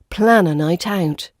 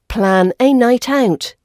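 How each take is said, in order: First: The word 'a' has a weak 'uh' vowel. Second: The word 'a' has a full strong vowel. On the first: The speaker calls it right. "we use the weak version, which sounds like uh" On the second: The speaker calls it wrong. "we don't pronounce the A vowel as the strong vowel sound"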